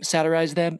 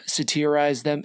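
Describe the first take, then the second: First: Satirize as SAT-er-ize; self-corrected pronunciation. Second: Satirize as suh-TEER-ize; unsure pronunciation. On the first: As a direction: say satirize with a full "sat" up front. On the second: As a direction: say satirize with a reduced first vowel, "teer" in the middle. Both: Real, not acted. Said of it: "Is that the right way to say it?".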